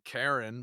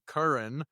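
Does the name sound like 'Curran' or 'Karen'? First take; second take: Karen; Curran. First: The name is said like 'Karen'. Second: The name is said like 'Curran'. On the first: The speaker calls it wrong. "don't call me Karen" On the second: The speaker calls it right. "you can call me Curran"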